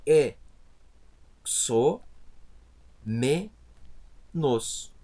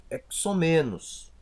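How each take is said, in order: First: "E, so, me, nos" with a full pause after each syllable. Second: Said in the usual way. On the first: Shown as a demonstration. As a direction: sound out "E, so, me, nos" one isolated piece at a time. ("E, so, me, nos" pronunciado sílaba por sílaba, com pausas) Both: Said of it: "como que eu vou separar".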